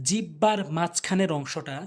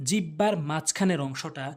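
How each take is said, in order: The two takes are said the same way.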